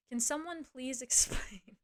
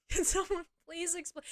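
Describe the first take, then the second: First: Slow, laughing plea; a slow laughing ask; laughing disbelief. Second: Higher, exasperated appeal to the audience; higher pitched mock-desperate plea. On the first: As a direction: chuckle through the question in disbelief. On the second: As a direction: throw the question out, fed up and incredulous. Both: Real, not acted.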